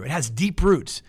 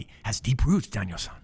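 First: Said in the usual way. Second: Mister Miyagi. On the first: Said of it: "I sound like Mister Miyagi". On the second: Retold or imitated. Preacher jokingly playing Miyagi to his congregation, lightly voiced. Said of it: "I feel like I sound like Mister Miyagi".

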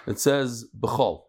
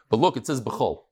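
First: "It says b'chol" drawn out slowly, leaning on b'chol; slow emphasis on b'chol. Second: Said in the usual way. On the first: Shown as a demonstration. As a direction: spell out "b'chol" slowly so the word sinks in. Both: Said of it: "We just said that the word kol".

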